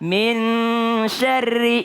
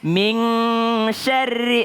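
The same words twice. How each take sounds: First: The n blends into the following sy sound. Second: The n is pronounced as an ng sound. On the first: The speaker calls it right. "Ikhfa itu adalah ketika nun melebur ke huruf setelahnya" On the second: The speaker calls it wrong. "Dia bilangnya kalau ikhfa itu N G"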